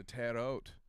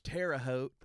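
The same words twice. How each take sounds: First: Terre Haute said "tad-oat"; grandmother's pronunciation. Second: Terre Haute said "terra-hote"; proper pronunciation. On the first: Retold or imitated. Quoting grandmother at the border, Terre Haute said "tad-oat". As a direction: run Terre Haute together with a d, no h. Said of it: "she kept telling them she was going". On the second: Shown as a demonstration. Explaining to English speakers, Terre Haute said "terra-hote". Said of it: "how you properly pronounce".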